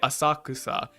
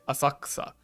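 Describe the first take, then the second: First: The vowel after the k is fully pronounced. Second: The vowel after the k is dropped. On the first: The speaker calls it wrong. "you don't say asakusa" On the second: The speaker calls it right. "you say asakusa"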